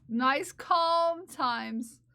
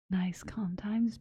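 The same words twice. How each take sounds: First: Very slow, voiced, drawn-out soothing; mock calming. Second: Slow, low whispered soothing; calming ASMR whisper. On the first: Streamer keeping viewers calm after tears, mock-soothing voice. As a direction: stretch each word out to calm them. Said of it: "It's nice and calm". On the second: Pretend. Streamer soothing viewers out of tears, calming whisper. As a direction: whisper it slowly to calm them. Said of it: "This voice is meant to calm you down".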